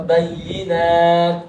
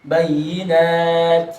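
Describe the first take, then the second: First: Bayyinat drawn out slowly; bayyinat, slow and stretched. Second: Said in the usual way. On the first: Shown as a demonstration. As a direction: bayyinat pulled apart slowly. (bayyinat pelan dan dipisah) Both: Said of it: "yang kedua salah".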